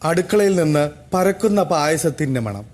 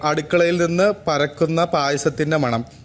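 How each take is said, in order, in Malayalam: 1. ഇത് ഭാവപൂർണ്ണവും ചടുലവുമായ രീതിയിലാണ് വായിച്ചിരിക്കുന്നത്. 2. ഇത് പരന്ന രീതിയിലാണ് വായിച്ചിരിക്കുന്നത്.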